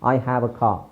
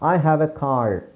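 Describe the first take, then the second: First: The final r in car is silent. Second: The final r in car is pronounced. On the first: "ಅಲ್ಲ British, ಅವರು just ಖಾ" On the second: "Americans ಏನು ಮಾಡ್ತಾರೆ... ಆರ್ನ pronounce ಮಾಡ್ತಾರೆ"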